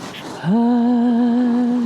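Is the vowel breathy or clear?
breathy. The vowel is breathy, with audible escaping air. The speaker calls it wrong. "Here's aspiration"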